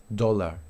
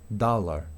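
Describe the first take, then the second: Both takes have the same delivery.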